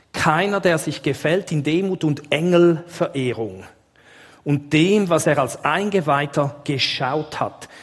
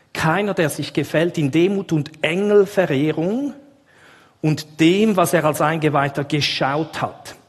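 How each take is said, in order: Both takes have the same delivery.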